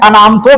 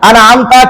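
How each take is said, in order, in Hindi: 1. शब्द 'tu' की ध्वनि से खत्म होता है। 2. शब्द 'ta' की ध्वनि से खत्म होता है। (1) "अनामतो पढ़ देना" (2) "अनाअमता की जगह पे"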